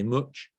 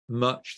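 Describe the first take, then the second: First: It is said in a Leicester accent. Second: It is said in a posh BBC-style accent.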